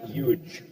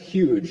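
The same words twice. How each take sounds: First: The word starts with a y sound, no h. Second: The word starts with a clear h sound. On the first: The speaker calls it wrong. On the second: The speaker calls it right. "it's pronounced"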